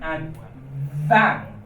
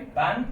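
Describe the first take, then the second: First: The word begins with a v sound. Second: The word begins with a b sound.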